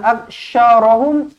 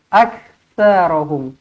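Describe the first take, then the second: First: The consonant before the r is 'sh'. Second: The consonant before the r is 'th'. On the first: The speaker calls it wrong. "bukan aksyarahum" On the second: The speaker calls it right. "tapi aktsarahum. Sa, hujung lidah"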